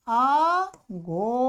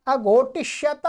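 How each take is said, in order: First: आघोटिष्यत in long, stretched syllables; slow model form. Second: Said in the usual way. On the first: Shown as a demonstration. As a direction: draw आघोटिष्यत out slowly, syllable by syllable. Slowly models new form.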